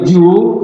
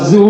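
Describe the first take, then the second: First: The syllable starts with a 'j' sound. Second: The syllable starts with a buzzing 'z' sound. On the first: "apalagi ju, ah, itu salah" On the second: "Kalau zu ... itu salah"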